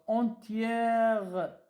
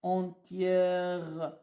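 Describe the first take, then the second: First: Entière drawn out very slowly; syllable dictation. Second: Entièrement said slowly; slow dictation. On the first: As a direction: break entière apart for dictation. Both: Shown as a demonstration. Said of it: "Je suis entièrement".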